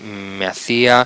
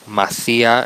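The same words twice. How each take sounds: First: The words are said fully and separately. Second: The words are run together into one. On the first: It is the standard form. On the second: It marks a vulgar, nonstandard register.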